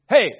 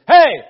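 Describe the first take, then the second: First: The word is said at a normal, quieter volume. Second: The word is said at a louder volume.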